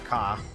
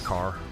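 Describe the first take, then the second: First: The final r sound is dropped. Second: The final r sound is clearly pronounced. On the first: This is how people in Boston say it. The speaker calls it wrong. "we're not Boston. We will not say car" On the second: This is how people here say it. The speaker calls it right. "we say car"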